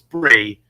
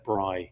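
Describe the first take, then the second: First: The vowel sounds like the one in 'free'. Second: The vowel sounds like the one in 'fry'. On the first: "if it's Bree, then I apologise" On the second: "I'm saying Bry. It's like it's like short for Brian"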